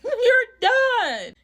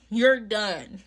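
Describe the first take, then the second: First: Higher, louder, laughing "You're done". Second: Said in the usual way. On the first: Retold or imitated. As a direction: laugh it out, mocking.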